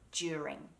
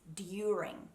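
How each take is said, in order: First: It begins with a J sound instead. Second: It begins with a clean D followed by Y. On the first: This is the relaxed everyday Australian pronunciation. "we mix that d, y sound and make a j" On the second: This is the careful, technical pronunciation. "the English pronunciation is during"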